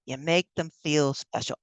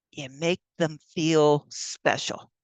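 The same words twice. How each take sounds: First: Said in the usual way. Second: Softly, slowly. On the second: Shown as a demonstration.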